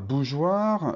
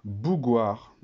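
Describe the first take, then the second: First: The g is soft, like a zh sound. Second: The g is hard, like in go. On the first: The speaker calls it right. "Pour que le G ici fasse le son J, il me faut le E" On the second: The speaker calls it wrong. "avec le O, le G, il fait G"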